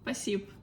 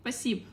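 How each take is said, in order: First: The word is said quickly with sounds dropped. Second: The same.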